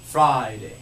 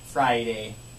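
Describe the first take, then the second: First: The first vowel is held; the second is brief. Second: Both parts of the vowel sound get equal weight. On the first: The speaker calls it right. "an example of how to say it correctly would be Friday" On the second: The speaker calls it wrong. "it'd be kind of weird to say like Friday"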